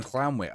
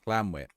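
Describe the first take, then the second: First: Llanwit said with a breathy Welsh ll, like "hlanwit"; Welsh ll sound. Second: Llanwit with a plain English L, "lanwit". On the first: Real, not acted. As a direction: start Llanwit with a hissed Welsh double L. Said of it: "to not be pronounced with the clan". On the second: Shown as a demonstration. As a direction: begin Llanwit with a simple clean L, no hiss. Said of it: "You pronounce it as L L, not C L".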